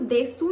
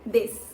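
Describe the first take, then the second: First: The final vowel is clearly pronounced as 'su'. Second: The final vowel is dropped, ending in 'sh'. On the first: "ये तो देसू लिखा है" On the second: "तो मैंने इसको देश क्यों बोला?"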